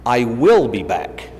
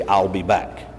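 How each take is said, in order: First: "will" drawn out and punched, every word separate; "I WILL be back", slow, with "will" spoken in full; stress on WILL. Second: "I'll" as one short contracted word, low and soft; "I'll be back", low and even, no word punched. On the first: Retold or imitated. Actor arguing his line to the writer, stress on WILL. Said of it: "I think that I should say". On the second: Writer correcting the actor's line, low contracted "I'll". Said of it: "you're going to say".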